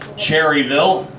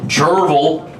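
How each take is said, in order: First: The first part has two syllables, cher-ry. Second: The first part is squeezed into one syllable. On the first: This is the standard pronunciation. "Anytime I pronounce it right" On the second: This is how the locals say it. "Cherville for the locals"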